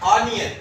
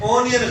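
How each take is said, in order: First: The first vowel is an 'ah' sound. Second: The first vowel is an 'oh' sound. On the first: The speaker calls it right. "आ इस तरह ऑनियन" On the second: The speaker calls it wrong. "ओनियन गलत लफ्ज है"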